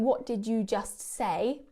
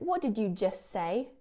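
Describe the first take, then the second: First: The t at the end of just is pronounced. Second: The t at the end of just is dropped. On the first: The speaker calls it wrong. "I'm not saying" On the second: The speaker calls it right. "I'm saying"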